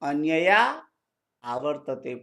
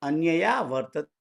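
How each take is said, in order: First: The words are split apart as separate words. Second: The words are joined into one running form.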